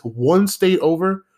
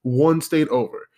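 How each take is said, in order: First: One state over stretched slow, rising in disbelief; first take, drawn out and rising; incredulous emphasis. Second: One state over dropped flat and falling; second take, level and falling; flat repeat. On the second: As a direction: let one state over fall, deflated. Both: Retold or imitated. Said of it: "But I'm like".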